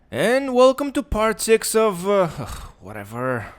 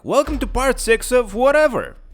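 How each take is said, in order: First: It is said in a bored, sighing tone. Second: It is said in an enthusiastic tone.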